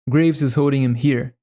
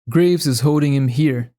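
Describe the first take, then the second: Both takes have the same delivery.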